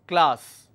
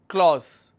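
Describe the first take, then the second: First: The vowel sounds like the one in cat. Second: The vowel sounds like the one in saw. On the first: The speaker calls it right. "It's class, correct?" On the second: The speaker calls it wrong. "people pronounce this as clause"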